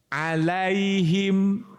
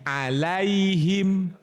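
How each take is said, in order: No difference in how they are said.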